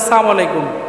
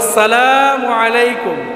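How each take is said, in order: First: The opening syllable is dropped and shortened. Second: Every syllable of the greeting is said fully. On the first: It sounds like wishing death on the listener. The speaker calls it wrong. "মুরব্বীরা সালাম দেয় সালাম আলাইকুম" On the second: It wishes peace on the listener. The speaker calls it right. "শুদ্ধ করে সুন্দরভাবে দিবেন"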